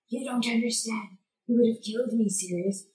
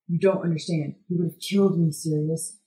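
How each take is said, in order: First: It is said in Peter's character voice. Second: It is said in a different character's voice.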